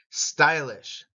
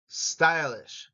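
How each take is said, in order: Both takes have the same delivery.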